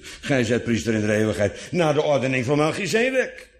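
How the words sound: The emphasis falls on van Melchizedek. His priesthood is of a different order than Aaron's. "Zo van, niet naar de ordening van Aaron"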